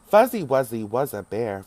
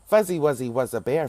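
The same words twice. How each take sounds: First: The line is spoken at a slow pace. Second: The line is spoken at a fast pace. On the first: "we'll start off slowly" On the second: "Let's speed it up again"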